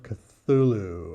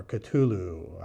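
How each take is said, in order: First: Cthulhu with a TH, kuh-THOO-loo; soft TH variant. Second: Cthulhu with a plain T, kuh-TOO-loo; hard T variant. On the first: Reviewer trying a tricky title, Cthulhu said kuh-THOO-loo. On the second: Reviewer offering the other option, Cthulhu said kuh-TOO-loo. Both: Shown as a demonstration. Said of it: "don't know how we pronounce that".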